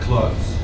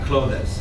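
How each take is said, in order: First: The word is said as one single syllable. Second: The ending is said as an extra es syllable. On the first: The speaker calls it right. "You'd say clothes" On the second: The speaker calls it wrong. "No, Mohammed, no E S. So not clothes"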